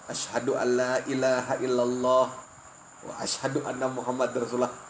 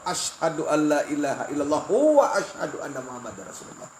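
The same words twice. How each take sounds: First: The phrase is broken up by a pause. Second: The phrase runs on without any pause. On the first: The two parts are treated as separate. The speaker calls it wrong. "Itu putus ngarannya" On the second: The two parts are treated as inseparable. The speaker calls it right. "disambung ... Bersambung"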